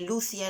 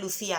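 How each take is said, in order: First: The name is said the Portuguese way. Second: The name is said the Spanish way. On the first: The speaker calls it right. "Lucia en realidad, como se pronuncia en portugués" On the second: The speaker calls it wrong. "Perdonad lo de Lucía"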